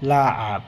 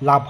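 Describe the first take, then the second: First: It has a throaty ain sound in the middle. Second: It has no throaty sound in the middle. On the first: The speaker calls it right. "আইন এখানে চলে আসতেছে" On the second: The speaker calls it wrong. "লাভ হবে না"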